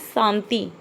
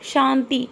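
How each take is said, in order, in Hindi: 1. शब्द 's' ध्वनि से शुरू होता है। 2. शब्द 'sh' ध्वनि से शुरू होता है। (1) "बच्चे ने पढ़ा" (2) "शुद्ध है शांति"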